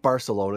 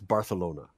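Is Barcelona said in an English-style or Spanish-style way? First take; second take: English-style; Spanish-style. First: The name is said in an English-style way. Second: The name is said in a Spanish-style way. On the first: The speaker calls it wrong. "Not Barcelona" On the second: The speaker calls it right. "which is the proper way to say it"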